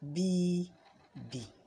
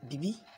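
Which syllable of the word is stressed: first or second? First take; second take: first; second. First: The stress is on the first syllable. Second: The stress is on the second syllable. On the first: The speaker calls it right. "you have to say B B" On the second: The speaker calls it wrong. "You don't say bibi"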